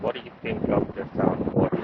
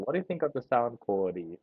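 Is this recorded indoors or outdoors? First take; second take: outdoors; indoors. First: It is recorded outdoors with strong wind noise. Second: It is recorded quietly in an indoor room. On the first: "now we are outside ... quite a strong wind coming at my face" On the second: "there's nothing much going on inside"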